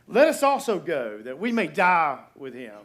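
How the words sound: It is said in a bold, heroic tone. The speaker is loyal and eager to face death. The speaker calls it wrong. "kind of braveheartish"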